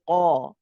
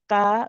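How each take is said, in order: First: The qaf is said heavy, with a full back sound. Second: The qaf is said light, without a full back sound. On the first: The speaker calls it right. "it is the most heavy" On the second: The speaker calls it wrong. "we do not say qa"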